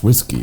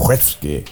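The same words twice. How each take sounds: First: Said in the usual way. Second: Whiskey? said as wesky, short e and a clipped ending; whiskey? the Scottish way, wesky. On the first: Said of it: "or, or should we say". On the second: Shown as a demonstration. Mocking Scottish whiskey? to a co-host, said wesky. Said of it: "It's the accent".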